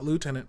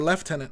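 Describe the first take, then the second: First: It is said without an f sound, loo-tenant. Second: It is said with an f sound, lef-tenant. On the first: "not Lieutenant" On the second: "British people say Lieutenant"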